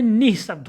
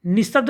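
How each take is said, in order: First: निःशब्द with an audible h after "ni"; correct visarga. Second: निःशब्द run together as "nisshabd"; wrong, no breath. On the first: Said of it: "होता है". (निःशब्द में विसर्ग साफ़) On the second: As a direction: skip the h in निःशब्द. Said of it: "निःशब्द नहीं". (निःशब्द में विसर्ग गायब) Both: Shown as a demonstration.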